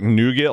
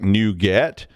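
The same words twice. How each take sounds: First: It sounds like the candy word nougat. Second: It sounds like the two words new get. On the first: "like that gooey stuff you buy in French gas stations" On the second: "it's better than old get"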